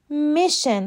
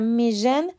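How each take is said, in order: First: The middle consonant is a voiceless 'sh' sound. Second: The middle consonant is a voiced 'zh' sound. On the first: The speaker calls it right. "تلفظ درست این کلمه میشن هست" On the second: The speaker calls it wrong. "میژن غلطه"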